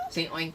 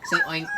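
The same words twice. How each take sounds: First: Said in the usual way. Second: Squeaky coaxing. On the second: Acted. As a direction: Say oink in a very high, louder squeak. Dad coaxes child, high squeak.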